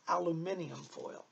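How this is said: It is said with a British pronunciation.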